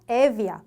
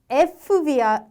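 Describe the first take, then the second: First: A single v sound follows the e. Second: An f sound comes before the v. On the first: The speaker calls it right. "마치 없는 것처럼 발음이 되는 거고" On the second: The speaker calls it wrong. "에프비아 또는 에브비아 이렇게 되는 게 아니라"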